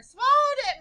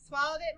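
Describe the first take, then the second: First: "Swallowed it" cried out much higher; crying out. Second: Said in the usual way. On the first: Shown as a demonstration. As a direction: cry it out in alarm. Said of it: "Maria cried". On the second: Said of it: "Maria said".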